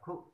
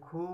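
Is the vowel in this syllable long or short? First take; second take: short; long. First: The vowel is short and quickly cut off. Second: The vowel is long and drawn out. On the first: The speaker calls it right. "क्योंकि खु कम समय के लिए पढ़ा गया" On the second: The speaker calls it wrong. "यदि खू होता खुल्लम तो बड़े उ की मात्रा लिखी जाती"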